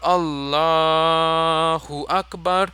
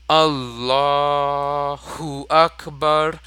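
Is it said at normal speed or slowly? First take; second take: normal speed; slowly. First: It is said at normal speed. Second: It is said slowly.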